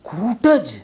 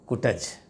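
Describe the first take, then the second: First: The first vowel is long and emphasized. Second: The first vowel is short and light. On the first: The word is given importance. "तो कूटज पर आप जोर दे रहे हैं" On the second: The word carries less weight. "छोटा ऊ है तो ध्वनि कम ध्वनि लगती है"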